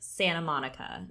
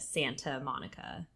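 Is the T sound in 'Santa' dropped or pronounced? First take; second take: dropped; pronounced. First: The T in Santa is left out. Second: The T in Santa is clearly pronounced. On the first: "if you're from California, you don't say your T's. So like Santa Monica" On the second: "instead of"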